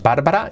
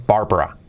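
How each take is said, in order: First: "Bárbara" in three full Spanish syllables, rising; the mistaken "Bárbara", BAR-ba-ra, held up for correction; wrong Spanish-style pronunciation. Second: "Barbara" squeezed to two syllables, BAR-bra, falling; English pronunciation. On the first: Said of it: "No es Bárbara". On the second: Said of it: "es Barbara". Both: Shown as a demonstration.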